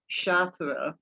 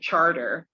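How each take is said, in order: First: It is said with a French-style pronunciation. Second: It is said with the local New Orleans pronunciation. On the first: The speaker calls it right. "like Chartres" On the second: The speaker calls it wrong. "you say charter"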